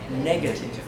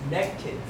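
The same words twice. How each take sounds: First: Every syllable of the word is pronounced. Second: One syllable of the word is dropped. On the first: The speaker calls it right. "It's negative" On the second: The speaker calls it wrong. "I heard someone say negative. So you missed one syllable"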